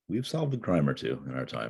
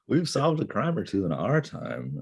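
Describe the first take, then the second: First: It is said at a normal, quieter volume. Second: It is said louder, with a quaver.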